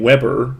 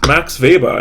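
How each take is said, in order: First: "Weber" said WEB-er, English way; plain English "Weber" with a W; English pronunciation. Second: Weber said with a V, VAY-ber; "Weber" as VAY-buh, German style; German pronunciation. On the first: Lecturer contrasting the English "Weber", WEB-er. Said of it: "why am I saying Weber?". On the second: Lecturer stressing "Weber" as VAY-ber, German way. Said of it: "why am I saying Weber? ... because Weber is a German name". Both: Shown as a demonstration.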